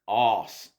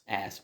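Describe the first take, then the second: First: It is said with an Australian accent. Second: It is said with an American accent. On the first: "whereas Australians arse" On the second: "like Americans, they say ass"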